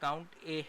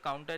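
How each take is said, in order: First: It is said as count, then the letter A. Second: It is run together as one word, counta. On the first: The speaker calls it right. "ये काउंट ए है" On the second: The speaker calls it wrong. "इसको लोग काउंटा भी बोलते हैं, लेकिन ये काउंटा नहीं है"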